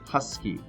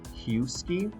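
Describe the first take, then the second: First: The first vowel is a short U sound. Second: The first vowel is a long U sound. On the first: The speaker calls it right. "it's that huh sound, that short U sound" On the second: The speaker calls it wrong. "but do we say husky? No"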